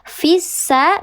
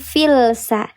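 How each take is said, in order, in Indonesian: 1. Huruf l melebur ke dalam bunyi s yang bertasydid. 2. Bunyi l terdengar terpisah sebelum bunyi s. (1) "Dibacanya dia dileburkan langsung ke huruf sin yang bertasydid" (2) "bukan filsa"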